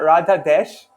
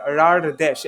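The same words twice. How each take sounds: First: "Radha Desh" with a clear D in Radha; "Radha Desh", no flapped R; common pronunciation. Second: "Rar Desh" with an R-like flap before Desh; "Rar Desh", first word ending in a flick; flapped pronunciation. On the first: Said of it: "everybody calls that Radha Desh". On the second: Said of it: "it's pronounced more like". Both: Shown as a demonstration.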